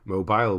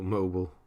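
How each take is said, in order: First: It is said with a British pronunciation. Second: It is said with an American pronunciation. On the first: "we would say" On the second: "That's American"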